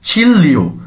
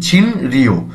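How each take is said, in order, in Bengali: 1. মাঝের ব্যঞ্জনধ্বনিটি দ্বিত্ব l ধ্বনি। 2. মাঝের ব্যঞ্জনধ্বনিটি স্পষ্ট n ধ্বনি। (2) "ছিন রিও এভাবে বলবো না"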